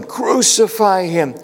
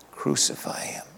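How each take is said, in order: First: High, slow mock crowd yell. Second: Hushed, breathless whisper of the mob's cry; whispered echo. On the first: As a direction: call it out like the mob demanding his death. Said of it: "they heard the crowds yelling". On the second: Retold or imitated. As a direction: let it drift back like a haunting memory. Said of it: "that echo in their ears".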